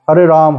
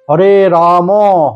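First: The name ends abruptly on the m sound. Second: The name ends with a final a vowel. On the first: The speaker calls it wrong. "No, it's wrong. Meaning will change. Because this looks like Bengali" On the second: The speaker calls it right. "Then it's perfect"

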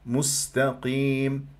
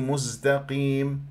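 First: The s sound is voiceless and breathy. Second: The s sound is voiced like z. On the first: The speaker calls it right. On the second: The speaker calls it wrong.

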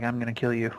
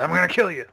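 First: It is said in a subdued, unnerving way. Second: It is said in an intense, over-the-top way.

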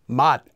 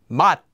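First: The word ends with a t sound. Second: The word ends with a t sound.

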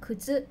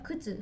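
First: It uses the standard Japanese pitch accent. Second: It uses the Kansai pitch accent. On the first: "標準語は靴" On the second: "関西は靴"

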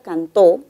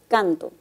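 First: The stress is on the last syllable. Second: The stress is on the first syllable. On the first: Someone sang in the past. "la palabra cantó puede ser pronunciada de otra manera" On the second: I sing. "puede cambiarse la posición del acento y tener distintos significados"

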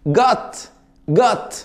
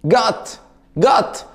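Both takes have the same delivery.

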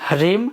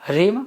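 Both takes have the same delivery.

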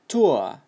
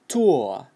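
First: It is said with a British accent. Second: It is said with a British accent.

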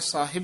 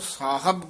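First: The second syllable has an 'i' vowel. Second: The second syllable has a 'u' vowel. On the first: The speaker calls it wrong. "ਸਾਹਿਬ ਨਹੀਂ ਕਹਿਣਾ ਹੈ" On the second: The speaker calls it right. "ਸੱਸੇ ਕੰਨਾ ਹਾਹਾ ਬੱਬਾ ਔਂਕੜ ਸਾਹਿਬ ਬੋਲਣਾ"

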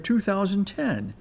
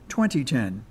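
First: The year is read in a longer form. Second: The year is read in a shorter form. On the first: This is the way most people kept saying years. The speaker calls it wrong. "We pronounced the new year" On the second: This is the simpler and more sensible way to say the year. The speaker calls it right. "the simpler and sensical"

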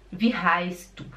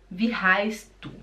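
No difference in how they are said.

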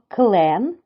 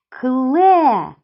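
First: The word ends with its final sound. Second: The word ends without its final sound. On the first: The speaker calls it right. "Скажіть їх разом зі мною правильно" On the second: The speaker calls it wrong. "Два слова я сказала без кінцевого звуку"

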